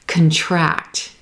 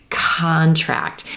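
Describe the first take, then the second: First: The stress is on the second syllable. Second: The stress is on the first syllable. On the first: It is a verb meaning to become smaller. "When we have our second syllable stressed, this is going to be a verb" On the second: It is a noun. "when we're stressing that first syllable, we're going to get a noun"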